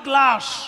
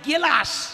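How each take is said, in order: First: The g and the l form one cluster. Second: A vowel separates the g and the l. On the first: The speaker calls it right. "উচ্চারণটা হবে গ্লাস" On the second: The speaker calls it wrong. "যেমন গেলাস"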